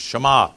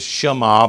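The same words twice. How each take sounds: First: No vowel is heard between sh and m. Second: A vowel is heard between sh and m. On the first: The speaker calls it right. "you don't say the E, just Shema" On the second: The speaker calls it wrong. "Sometimes we say the Shema"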